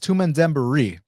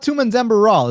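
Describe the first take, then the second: First: The surname ends with an 'ee' sound. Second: The surname ends with an 'l' sound. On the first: The speaker calls it right. "it's Tumen Dembari" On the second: The speaker calls it wrong. "it's not Tumen Dembaral"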